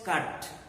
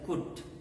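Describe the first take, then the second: First: The vowel is an open 'uh' sound. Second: The vowel is a rounded 'oo' sound. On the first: The speaker calls it right. "You call this cut" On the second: The speaker calls it wrong. "you should pronounce this as kut"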